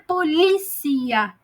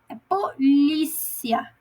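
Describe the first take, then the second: First: The stress falls on a syllable other than 'li'. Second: The stress falls on the syllable 'li'. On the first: The speaker calls it wrong. "não é polícia" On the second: The speaker calls it right. "acento agudo no i, no li"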